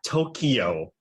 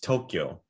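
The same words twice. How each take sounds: First: It has an extra vowel, like To-ki-yo. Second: It has no extra vowel, like To-kyo. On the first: The speaker calls it wrong. "It is not Tokyo. There's no key... There's no vowel between that" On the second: The speaker calls it right. "It's Tokyo"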